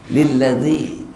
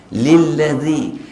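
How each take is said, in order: The two takes are said the same way.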